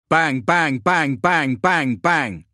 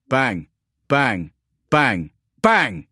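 First: Rapid-fire bangs, high and loud; automatic gunfire. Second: Separate, punchy bangs, each falling away; voiced gunshots. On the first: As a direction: fire off the bangs in an unbroken staccato burst. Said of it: "fire on full automatic". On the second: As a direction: hit each bang hard, with a gap after it. Narrator voices spaced gunfire bangs. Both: A narrator's reading.

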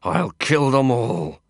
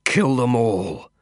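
First: Growling through clenched teeth. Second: Growled through teeth. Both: A narrator's reading. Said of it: "dragging the air in through clenched teeth and growling it out".

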